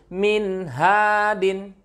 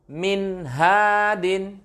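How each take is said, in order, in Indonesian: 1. Bunyi n itu jelas dan singkat. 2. Bunyi n itu jelas dan singkat.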